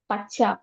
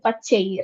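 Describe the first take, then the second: First: The word ends on an open 'a' sound. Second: The word ends with an added 'ee' sound. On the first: This is the speaker's own regional form. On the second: This is the listeners' regional form.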